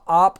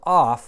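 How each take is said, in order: First: The word ends in a p sound. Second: The word ends in an f sound. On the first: The next word begins with a vowel. "that omicron drops out" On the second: The next word begins with rough breathing. "that p is aspirating"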